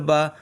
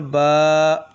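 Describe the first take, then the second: First: The vowel is short and said quickly. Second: The vowel is drawn out long. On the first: "ज़बर को जल्दी" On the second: "खरा ज़बर को खींचेंगे"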